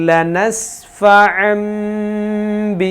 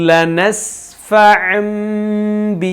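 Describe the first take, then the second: No difference in how they are said.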